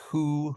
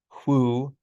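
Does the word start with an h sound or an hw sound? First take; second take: h; hw. First: The word starts with a plain h sound. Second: The word starts with a voiceless hw sound. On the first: This is how it is said today. "pronounced with an H because the H part survived" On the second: This is how it was said long ago. "once upon a time, these were pronounced"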